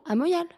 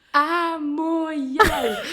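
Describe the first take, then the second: First: Said in the usual way. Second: Loud, high, very drawn-out mock annoyance; retold exasperation. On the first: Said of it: "Alors moi, je réponds". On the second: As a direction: spell it out slowly as if to someone dense, half laughing. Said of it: "je m'énerve et je commence à lui parler". (exaspération rejouée, nom crié en traînant, aigu)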